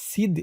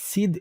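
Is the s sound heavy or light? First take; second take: light; light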